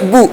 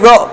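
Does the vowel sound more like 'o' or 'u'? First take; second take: u; o. First: The vowel is said with rounded lips, like 'u'. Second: The vowel is said without rounded lips, like 'o'. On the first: The speaker calls it right. "होंठों को हरकत देनी है। ठीक है, गोल करना है।" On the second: The speaker calls it wrong. "अब होंठ नहीं गोल करूंगा तो बो आधा होगा, और बो गलत है, मजहूल है"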